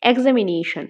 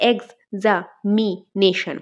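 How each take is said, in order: First: Said in the usual way. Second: এক্সামিনেশন slowly in parts, এক্স-আ-মি-নেশন; split into syllables. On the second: Shown as a demonstration. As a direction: break এক্সামিনেশন up with short pauses. (এক্সামিনেশন ভাগ করে ধীরে থেমে থেমে) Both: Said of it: "আমরা part করলে কি হবে?".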